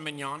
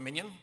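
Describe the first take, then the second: First: It is said like 'meen-yon', not 'minion'. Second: It is said like the English word 'minion'. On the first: Others pronounce the name this way. "they call it a mignon" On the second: The speaker pronounces the name this way. "I call it a minion"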